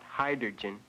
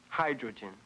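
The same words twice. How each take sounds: First: The R sound is moved out of place. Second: The R sound is in its usual place. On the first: The speaker calls it wrong. "Not hydrogen. You transposed the R sound" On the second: The speaker calls it right. "The word is pronounced hydrogen"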